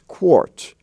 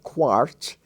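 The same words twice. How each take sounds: First: The vowel is an or sound, as in for. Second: The vowel is an open ah, as in car. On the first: The speaker calls it right. "it's quart" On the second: The speaker calls it wrong. "It's not quart"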